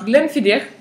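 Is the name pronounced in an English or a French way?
English. The name is pronounced the English way. The speaker knows whisky. The speaker calls it right. "Vous aurez donc l'obligeance de commander un Glenfiddich"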